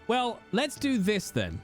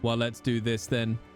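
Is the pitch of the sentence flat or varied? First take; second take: varied; flat. First: The sentence is said with varied, lively pitch. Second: The sentence is said in a flat monotone. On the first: "in my head, I read it with this voice" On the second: "I'll try and do it monotone"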